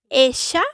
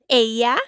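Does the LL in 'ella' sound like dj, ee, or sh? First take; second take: sh; ee. First: The LL sounds like an sh sound. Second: The LL sounds like a short ee sound. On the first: "posee un sonido de sh" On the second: "con sonido de I"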